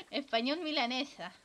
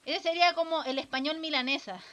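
First: Repetido entre risas; ríete de tu chiste mientras lo dices; riendo. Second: Said in the usual way. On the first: Real, not acted. Repite su propio chiste riendo. (riéndose de su propio chiste)

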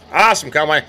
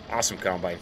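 First: Said out with gusto; louder, proud exclamation; louder admiring. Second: Quiet admiring mutter; low, soft, under the breath; soft murmur. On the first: Farmer praising his combine to viewers, louder and proud. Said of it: "repeated softly first". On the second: Farmer admiring his combine, says it quietly under his breath. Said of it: "repeated louder". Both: Real, not acted.

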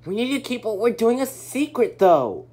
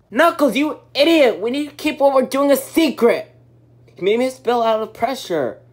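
First: Said in the usual way. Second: Furious scolding shout; angry yelling. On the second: Acted. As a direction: yell at him in anger. Scolding a friend.

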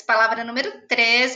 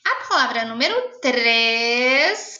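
First: Said in the usual way. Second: Slow dictation. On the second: Shown as a demonstration.

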